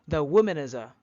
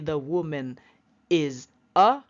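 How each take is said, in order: First: The words are blended together smoothly. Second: The words are said separately, not linked. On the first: The speaker calls it right. "just connect them together, blend them together" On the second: The speaker calls it wrong. "don't say the woman is a"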